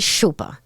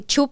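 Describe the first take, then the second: First: The word begins with an 'sh' sound. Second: The word begins with a 'ch' sound. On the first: This is how the speaker would say it. The speaker calls it right. "I would say shupa" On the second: This is how the other person says it. The speaker calls it wrong. "You say chupa"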